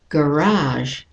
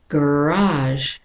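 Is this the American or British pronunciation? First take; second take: American; American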